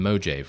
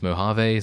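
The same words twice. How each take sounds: First: The name is given a jokey, nonstandard pronunciation. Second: The name is given its standard, usual pronunciation. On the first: The speaker calls it wrong. "it's a joke reference. It's not actually me thinking that that's the correct way to say it" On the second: The speaker calls it right. "I know it's Mojave"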